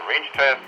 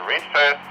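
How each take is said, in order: Both takes have the same delivery.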